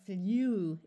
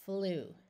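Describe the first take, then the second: First: The vowel is said with a 'y' glide, 'yoo'. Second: The vowel is a plain 'oo' with no glide. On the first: The speaker calls it wrong. "saying U after the letter, letter L is too hard to do, because that would sound like flew, and that's very difficult" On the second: The speaker calls it right. "So we use the oo sound"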